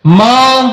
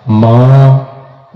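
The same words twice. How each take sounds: First: Short high loud cry of माँ; calling mother. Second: Long drawn-out low wailing call; calling mother. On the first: Son in hell calls his mother again, high loud cry. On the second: Son in hell calls out to his mother, drawn-out low wail. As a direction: stretch the word माँ into a slow low wail. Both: Acted. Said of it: "अब आवाज देगा".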